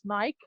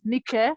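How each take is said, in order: First: "Nike" said her own preferred way; own pronunciation of Nike. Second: "Nike" said the way others pronounce it; others' pronunciation of Nike. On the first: Guest correcting her name for the host, own pronunciation. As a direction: give "Nike" as the name's owner says it. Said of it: "I pronounce it as Nike". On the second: Guest introducing her name to the host, others' pronunciation. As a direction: give "Nike" as other people say it. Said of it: "it's been pronounced as Nike". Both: Shown as a demonstration.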